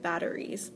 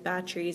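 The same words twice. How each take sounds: First: It is said in a careful, standard pronunciation. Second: It is said in a loose, casual pronunciation. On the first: It shows his education. The speaker calls it right. "instead of" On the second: He wants to seem uneducated. The speaker calls it wrong. "He says certain words like wrong on purpose"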